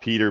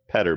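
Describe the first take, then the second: First: The first vowel is a long 'ee' sound. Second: The first vowel is a short 'e' sound. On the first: This is the ordinary way to say the name. "not Peter Baelish" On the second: The unusual spelling suggests a different pronunciation. "In my head, he's Petter Baelish"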